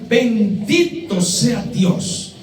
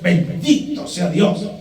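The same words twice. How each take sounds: First: It is said in a sincere, reverent tone. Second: It is said in an annoyed, exasperated tone. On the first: The speaker genuinely blesses God. The speaker calls it right. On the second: The speaker is frustrated by bad circumstances. The speaker calls it wrong.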